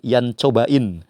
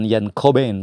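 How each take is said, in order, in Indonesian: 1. Nama itu dibaca sesuai ejaan bahasa Indonesia. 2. Nama itu diucapkan dengan cara Inggris.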